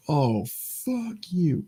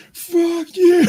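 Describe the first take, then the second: First: Slow, soft, drawn-out hushed insult; whispered. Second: Loud high-pitched shout at the screen; a heckler yelling at the movie from the seats; mock yell. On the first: Retold or imitated. Retelling what he said after the movie, slow hushed insult. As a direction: breathe it out slowly under your breath. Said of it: "don't know why I whispered it again". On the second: Heckler yelling at the movie's end, loud high shout. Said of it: "stand up at the end going".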